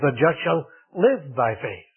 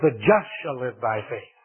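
First: The word "live" carries the main stress. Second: The word "just" carries the main stress. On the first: The focus is on how the righteous live. "he put the emphasis on the life" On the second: The focus is on who the righteous are. "he had put the emphasis on the just"

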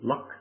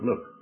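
First: The vowel is short, like in luck. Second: The vowel is long, like in fluke. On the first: This is how it is said in America. "being in America again, that I shouldn't say Luke, I should say" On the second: This is how it is said in Scotland and Canada. "in Scotland and in Canada, we say the book of Luke"

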